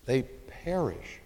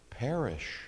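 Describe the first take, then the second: First: They perish said slowly, weight on They, falling; slow emphasis. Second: Perish said softly with a falling close; emphasized answer. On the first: Preacher driving home the key word, slow and grave. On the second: Preacher answering his own question, softly stressed. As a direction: lay a quiet, falling weight on Perish. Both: Shown as a demonstration. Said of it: "I want you to emphasize the word perish".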